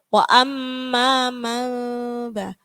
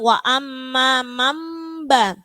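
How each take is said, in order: First: The lips stay slightly open on the m sound. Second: The lips close fully on the m sound. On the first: "Ada yang sedikit dibuka" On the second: "benar-benar mingkem, nutup"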